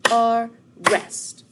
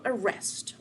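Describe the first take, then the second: First: "Arrest" split into two loud, drawn-out beats; syllable by syllable. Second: Said in the usual way. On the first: Shown as a demonstration. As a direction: clap out "Arrest" slowly and loudly. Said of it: "see how many syllables we have". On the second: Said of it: "how many syllables we have".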